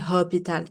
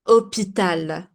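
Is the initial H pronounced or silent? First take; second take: pronounced; silent. First: The word begins with an audible H sound. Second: The word begins without any H sound. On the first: The speaker calls it wrong. "I don't say hospital" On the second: The speaker calls it right. "H is silent"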